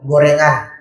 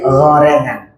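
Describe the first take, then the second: First: The first consonant is light and plain. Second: The first consonant is heavy and raised. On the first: The speaker calls it wrong. "jangan go" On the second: The speaker calls it right. "pakai gha isti'ala"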